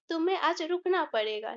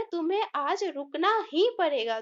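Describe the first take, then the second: First: Said in the usual way. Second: ही given extra weight; stress on ही. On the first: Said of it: "ऐसे भी बोल सकते थे". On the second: Shown as a demonstration. Teacher showing the class the stress on ही. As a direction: press on ही in रुकना ही पड़ेगा. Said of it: "लेकिन हम बोले".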